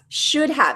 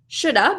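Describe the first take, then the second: First: Both words are pronounced fully and separately. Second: The words are linked and reduced to one.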